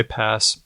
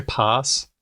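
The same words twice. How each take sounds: First: "pass" with a short front a, as in cat. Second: "pass" with a long open ah, like pahs; broad-a pass. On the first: Host asking a guest how they say it, short-a pass. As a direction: say "pass" with the flat American a of cat. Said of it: "Do you say pass". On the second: Host offering the guest another version, broad-a pass. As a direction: say "pass" as "pahs", the vowel of father. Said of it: "How do you say pass". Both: Shown as a demonstration.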